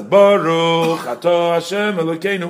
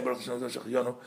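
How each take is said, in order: First: Cantor's blessing, said out loud and higher; cantor aloud. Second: Congregant's blessing, murmured much softer; undertone. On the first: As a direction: call the blessing out for the whole room. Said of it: "while he's saying it out loud". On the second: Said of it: "each one says it, uh, quietly". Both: Shown as a demonstration.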